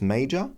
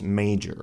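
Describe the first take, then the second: First: The word ends without an R sound. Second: The word ends with a pronounced R sound. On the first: "So in British and Australian English, it's major" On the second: "but in North American English, it's major"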